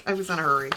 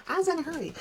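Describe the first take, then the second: First: Said in the usual way. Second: High, squeaky mock-excuse voice; playful high-pitched self-mockery; silly high voice. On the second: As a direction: whine the excuse like a cartoon kid. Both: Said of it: "repeated in silly voice".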